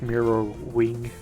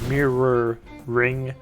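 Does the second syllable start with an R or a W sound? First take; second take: W; R. First: The second syllable begins with a W-like sound. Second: The second syllable begins with a clear R sound. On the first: The speaker calls it wrong. "but I'm saying like mirror wing or something" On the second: The speaker calls it right. "Like mirror ring"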